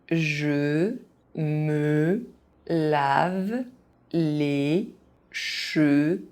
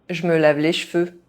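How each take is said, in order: First: It is said very slowly, syllable by syllable. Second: It is said fast, with some sounds dropped. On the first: Each syllable can be followed. "very slowly" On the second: This is how native speakers say it. "fast, as a native speaker would do"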